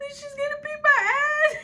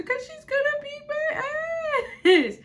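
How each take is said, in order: First: High, loud sobbing wail; mock crying wail. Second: Slow, high, loud whiny wail; mock crying wail. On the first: Mimicking the classmate crying to others, high mock wail. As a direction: wail it like a blubbering kid. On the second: Mimicking the classmate crying to others, slow high mock wail. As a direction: drag it out in a blubbering cry. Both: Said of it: "I remember hearing her say".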